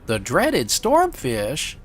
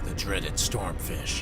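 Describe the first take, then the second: First: It is said in an odd, unthreatening way. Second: It is said in a menacing, dramatic way. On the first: The speaker seems a bit unhinged. "Doesn't sound anywhere near as mean when you go" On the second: The creature is frightening. "Makes it sound mean that way"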